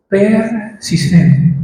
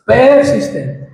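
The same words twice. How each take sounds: First: Persistente stretched very slowly, syllable by syllable; drawn-out answer. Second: Persistente repeated higher and slow, hammered home; higher emphatic repeat. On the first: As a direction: let Persistente hang slowly in the air. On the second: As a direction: drive Persistente home a second time, higher. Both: Real, not acted. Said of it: "Pero la oración debe ser, ¿qué?".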